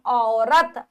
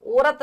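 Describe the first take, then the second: First: औरत with an opening au, 'aurat'; au sound. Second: औरत with an o, 'orat'; mispronounced औरत. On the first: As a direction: say औरत as 'au-rat'. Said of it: "औ आता है". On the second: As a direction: say औरत wrongly as 'o-rat'. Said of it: "औरत नहीं". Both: Shown as a demonstration.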